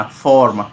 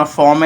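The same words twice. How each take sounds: First: फॉर्म as one stand-alone beat, falling; फॉर्म set apart with a falling tune; one syllable. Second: Said in the usual way. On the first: Shown as a demonstration. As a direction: say फॉर्म in a single stressed syllable. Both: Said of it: "एक से बना".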